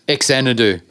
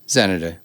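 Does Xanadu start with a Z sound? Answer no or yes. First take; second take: No; Yes. First: The first X is not sounded as Z. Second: The first X is sounded as Z. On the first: This is how the other person says it. The speaker calls it wrong. "What did I say?" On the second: This is how the speaker says it. The speaker calls it right. "It's pronounced as a Z, like zenith"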